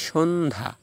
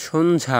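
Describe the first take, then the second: First: সন্ধ্যা as "shondha", with no ya-glide; silent জফলা. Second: সন্ধ্যা with the written ya-glide sounded out; mispronounced জফলা. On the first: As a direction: drop the জফলা sound in সন্ধ্যা. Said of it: "তো জফলা উচ্চারণ হবে না". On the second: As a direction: say সন্ধ্যা letter by letter, pronouncing the জফলা. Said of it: "আমরা বলি না". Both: Shown as a demonstration.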